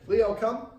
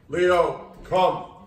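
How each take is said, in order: First: It is said in a normal, neutral voice. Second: It is said in a lower, stern voice.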